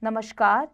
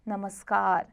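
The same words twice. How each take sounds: First: नमस्कार with sh, ending lifted; wrong sh sound. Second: नमस्कार with s, ending falling; correct s sound. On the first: Teacher shows the error, नमस्कार with sh. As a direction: say नमस्कार as namashkar. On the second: Teacher corrects it, नमस्कार with s. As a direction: say नमस्कार as namaskar. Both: Shown as a demonstration. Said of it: "स संबंधी".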